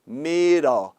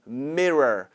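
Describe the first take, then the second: First: The r is a tap with the tongue touching. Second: The r is smooth with no tongue contact. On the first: The speaker calls it wrong. "닿으면" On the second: The speaker calls it right. "안 닿으면 mirror, mirror 이렇게 하는 게 정확한 발음이고요"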